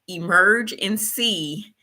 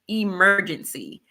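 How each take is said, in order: First: It is said slowly, as separate words. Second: It is said fast, run together as one word.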